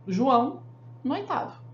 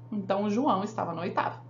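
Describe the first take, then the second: First: João, pause, no oitavo; a marked pause after "João" standing in for the dropped "estava"; pause for comma. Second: Said in the usual way. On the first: Shown as a demonstration. Teacher showing the comma pause to students. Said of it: "a segunda vez eu ponho uma vírgula". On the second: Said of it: "não falar duas vezes o estava".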